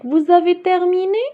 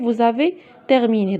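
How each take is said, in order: First: The voice rises at the end like a question. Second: The voice falls at the end like a statement. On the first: It asks whether the listeners have finished. "j'ai changé la manière avec laquelle je lis" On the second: It states that the listeners have finished. "c'est une simple phrase"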